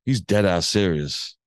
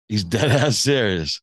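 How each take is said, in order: First: Said in the usual way. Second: Repeating it through a laugh. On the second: Real, not acted. To the listener about the coin toss, laughing. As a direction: laugh as you say it again.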